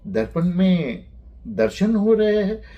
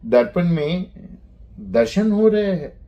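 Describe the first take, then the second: No difference in how they are said.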